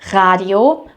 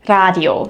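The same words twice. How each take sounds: First: The R is made at the back of the throat. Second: The R is tapped with the tongue tip. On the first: "pronounce it in the back of your throat" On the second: "with the tip of your tongue"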